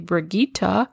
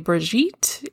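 First: The name is pronounced the German way. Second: The name is pronounced the French way. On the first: "If you're German, you can say Brigitte" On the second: "If you're French, you can say Brigitte"

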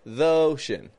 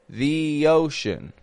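First: 'The' has a schwa blended into 'ocean'. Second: 'The' has a long E with a y glide. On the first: The speaker calls it wrong. "It sounds too mushed up" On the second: The speaker calls it right. "more the ocean"

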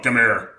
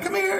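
First: It is said in a harsh, gruff tone. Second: It is said in a soft, gentle tone.

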